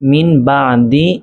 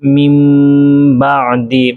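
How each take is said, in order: First: A plain n sound comes before the b. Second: A nasalized m sound comes before the b. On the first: The speaker calls it wrong. "মূল শব্দটি ছিল মিন বাদি" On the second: The speaker calls it right. "তাহলে কিভাবে উচ্চারণ হবে?"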